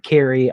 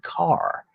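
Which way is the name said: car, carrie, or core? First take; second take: carrie; car. First: The name has two syllables, ending in 'ee'. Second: The name is one syllable with an 'ar' vowel. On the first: The speaker calls it wrong. "I said Carrie. I don't think that's right" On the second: The speaker calls it right. "I looked it up on the internet and it said Carr"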